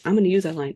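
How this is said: It is said excitedly, like an exclamation.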